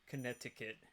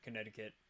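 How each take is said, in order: First: The consonant is said as a clear T. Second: The consonant is said softly like a D. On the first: "you don't hear it Connecticut" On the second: "You just hear it Connecticut"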